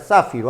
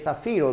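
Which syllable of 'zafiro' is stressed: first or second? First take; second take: first; second. First: The stress is on the first syllable. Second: The stress is on the second syllable. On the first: The speaker calls it wrong. "no vayas a pronunciar zafiro ... sería una palabra esdrújula" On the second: The speaker calls it right. "se lee zafiro ... Es una palabra grave"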